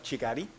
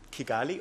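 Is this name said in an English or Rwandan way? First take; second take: Rwandan; English. First: The name is said with a Rwandan pronunciation. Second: The name is said with an English pronunciation. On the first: "as it would be called by Rwandans" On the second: "It's called Kigali"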